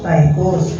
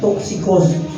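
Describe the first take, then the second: First: The name is said the English way. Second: The name is said the original Greek way. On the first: "sa English, tychus" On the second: "toxicos yung pronunciation yan, yung original"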